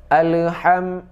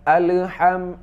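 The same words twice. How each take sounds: The two takes are said the same way.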